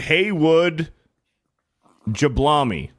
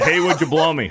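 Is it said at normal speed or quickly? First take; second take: normal; quickly. First: It is said at a normal speed. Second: It is said quickly.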